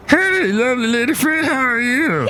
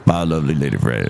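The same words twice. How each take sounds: First: Very high put-on greeting; comic visitor. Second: Very low put-on farewell; visiting comic character. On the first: Visitor greeting the co-host, very high character voice. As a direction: greet in a silly, sky-high voice. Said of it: "Hey, look who's here". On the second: Visitor parting from the co-host, very low character voice. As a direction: say goodbye way down in pitch. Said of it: "Look who else is here".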